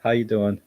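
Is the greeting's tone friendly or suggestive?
friendly. It is said in a plain, friendly tone. It is a simple polite greeting. The speaker calls it right. "it's a friendly how you doing"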